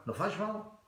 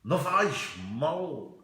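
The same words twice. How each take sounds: First: Light, higher-pitched happy take. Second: Slow, drawn-out moody take. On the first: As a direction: say it happily, high and soft. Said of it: "happy, you go like". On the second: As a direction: drag it out in a mood. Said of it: "If you're a murin, you go like". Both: Shown as a demonstration.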